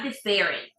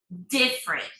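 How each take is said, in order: First: The stress is on the second syllable. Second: The stress is on the first syllable. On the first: The speaker calls it wrong. "It's not different" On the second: The speaker calls it right. "But in English, is in the first syllable"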